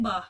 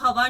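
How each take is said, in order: First: The first syllable is dropped, leaving a short word. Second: The word is said in full with its first syllable. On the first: This is how the regional dialect says it. "ਉਹ ਕਹਿਣਗੇ ਬਾ" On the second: This is the standard form not used in that dialect. "ਉਹ ਹਵਾ ਨਹੀਂ ਬੋਲਣਗੇ"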